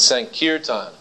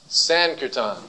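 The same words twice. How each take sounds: First: The stress is on the middle syllable. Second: The stress is not on the middle syllable. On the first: The speaker calls it right. "That's the only place the accent goes, right in the middle" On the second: The speaker calls it wrong. "it's not Sankirtan"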